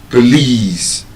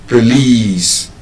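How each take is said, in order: No difference in how they are said.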